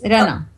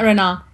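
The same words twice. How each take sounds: First: The A vowel is said short. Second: The A vowel is said long. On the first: The speaker calls it right. "It's a short A" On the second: The speaker calls it wrong. "No, not Reina"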